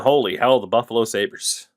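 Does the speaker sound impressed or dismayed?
impressed. It sounds impressed and excited. The team's forwards are great.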